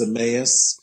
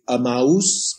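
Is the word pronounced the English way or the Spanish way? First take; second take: English; Spanish. First: The word is said with an English pronunciation. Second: The word is said with a Spanish pronunciation. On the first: "but in English it's Emmaus" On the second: "in Spanish it would be Emmaus"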